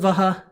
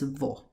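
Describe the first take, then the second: First: It is said as two syllables, va-ha. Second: It is said as one syllable, vo. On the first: "While it's spelled as vaha" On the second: "it is pronounced as vo"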